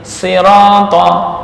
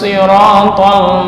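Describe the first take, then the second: First: The word begins with a plain s sound. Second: The word begins with an emphatic s sound. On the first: "dengan membaca sin" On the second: "sisanya ini dibaca shad normal"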